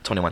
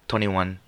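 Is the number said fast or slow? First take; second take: fast; slow. First: The number is said quickly. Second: The number is said slowly. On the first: The speaker calls it right. "Say it fast like me. Say it like this" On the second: The speaker calls it wrong. "why are you saying it so slow?"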